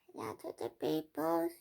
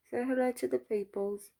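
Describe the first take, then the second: First: Very high little pet voice; pet's voice. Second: Higher-pitched coaxing to a pet; coaxing pet talk. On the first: Pretend. Pet greeting the viewers when prompted, high put-on voice. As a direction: answer as the tiny pet, pitched way up. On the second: Real, not acted. Owner prompting her pet to greet the viewers, coaxing. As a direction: coax the little one in a raised voice.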